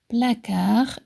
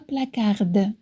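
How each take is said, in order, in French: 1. Le mot se termine sans son d final. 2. Le mot se termine avec un son d bien prononcé. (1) "Placard et non pas placarde" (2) "non pas placarde"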